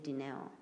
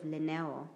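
First: The name begins with a D sound. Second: The name begins with an L sound. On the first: The speaker calls it right. "you pronounce it with a D" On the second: The speaker calls it wrong. "it's spelled L-I-N-E-O"

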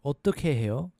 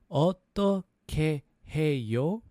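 First: It is said at a faster pace. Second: It is said at a slower pace.

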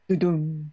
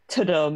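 First: The word begins with a D sound. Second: The word begins with a T sound. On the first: The speaker calls it right. "It's definitely ta-dum" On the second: The speaker calls it wrong. "It's not a T sound"

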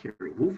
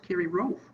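First: The surname begins with a W sound. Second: The surname begins with an R sound. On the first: The speaker calls it wrong. "It's not Kerry Wolf" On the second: The speaker calls it right. "it's Kerry Rolf, right?"

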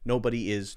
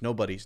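First: 'Is' is said as a separate full word. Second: 'Is' is contracted onto 'nobody'.

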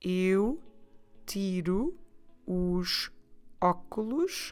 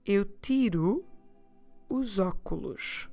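First: The sentence is spoken slowly. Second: The sentence is spoken at a normal pace.

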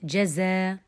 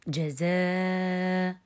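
First: The long vowel is held for two counts. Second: The long vowel is held for four counts.

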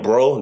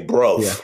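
First: The word ends in a plain vowel. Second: The word ends in a hard V sound. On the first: "Instead of saying bro" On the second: "like a hard V"

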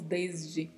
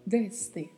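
First: The s in the middle is buzzed like z. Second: The s in the middle is a sharp hiss. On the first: "a gente pronuncia o S com um som parecido com o Z" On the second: "Em espanhol, não"

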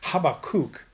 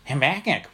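First: The name is said with a Hebrew pronunciation. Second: The name is said with a nasal New England accent. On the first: The speaker calls it right. "the Hebrew pronunciation of this word, its name, is Habakkuk" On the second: The speaker calls it wrong. "which kind of was a whole weird nasally kind of thing"

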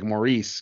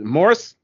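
First: The ending is said with a long 'ee' sound. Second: The ending is said with a short 'i' sound. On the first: "the way we say that name here is like Maurice, because we say the E" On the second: "But Morris, I'm like, that's weird"

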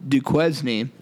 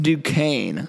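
First: The name is sounded out as it is written. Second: The name is said the established way. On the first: The speaker calls it wrong. "we were calling this team Duquesne" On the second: The speaker calls it right. "it is pronounced Duquesne"

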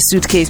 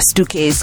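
First: It is pronounced the standard English way. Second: It is pronounced with a Ugandan accent.

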